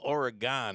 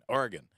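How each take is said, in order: First: The word is said in a full, unreduced form. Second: The word is said in a shortened, reduced form. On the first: "with the full Oregon" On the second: "all these years I've been call- calling it Oregon"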